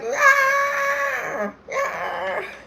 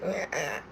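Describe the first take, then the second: First: It is yelled loudly. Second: It is said weakly, voice fading.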